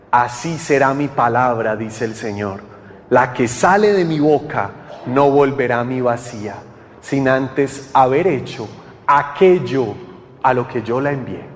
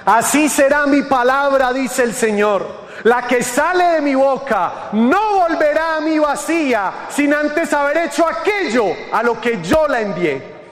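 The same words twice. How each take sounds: First: Very low, measured delivery; low-pitched, reverent repeat of scripture; solemn scripture recitation. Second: High, ringing preacher's voice; scripture proclamation. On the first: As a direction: let the verse sink in, deep and deliberate. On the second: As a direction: proclaim the verse with rising fervor. Scripture proclaimed, later repeated low. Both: Acted.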